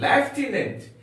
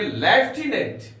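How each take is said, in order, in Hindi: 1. पहला अक्षर 'lef' जैसा सुनाई देता है। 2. पहला अक्षर 'lef' जैसा सुनाई देता है।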